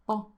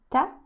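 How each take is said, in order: First: TA with a thick, heavy emphatic T. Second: TA with a light, thin t, rising. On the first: Teacher showing the correct letter, heavy TA. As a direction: land a heavy T on TA. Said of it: "Very heavy T". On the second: Teacher showing the wrong sound, light rising TA. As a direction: say TA lightly, pitched up at the end. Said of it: "It's not a ta". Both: Shown as a demonstration.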